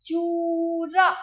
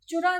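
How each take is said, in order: First: चूरा said very slowly and louder, ऊ held long; teacher stretching the long ऊ in चूरा; चूरा with a long, held ऊ, never short; long oo in choora. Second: चुरा said quickly with a short उ; the wrong version, चुरा with a clipped short उ; short u wrong take. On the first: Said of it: "चुरा नहीं है". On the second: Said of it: "चुरा होता तो छोटा होता है". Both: Shown as a demonstration.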